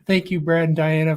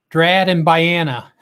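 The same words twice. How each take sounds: First: Said in the usual way. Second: "Drad and Biana" with the first sounds swapped; garbled names; slip of the tongue. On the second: Real, not acted. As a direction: trip over the names, swapping the D and B.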